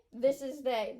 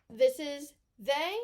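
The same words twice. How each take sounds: First: Said in the usual way. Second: THIS is they, slow and loud on THIS; stress on this. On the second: Shown as a demonstration. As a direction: hit the word THIS, slowly.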